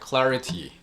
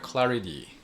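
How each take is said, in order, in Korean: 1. 가운데 자음은 분명한 T 소리입니다. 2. 가운데 자음은 부드러운 D 소리입니다. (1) "편하게 한번 읽어보" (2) "T 발음을 D 발음으로 한번 읽어볼까요?"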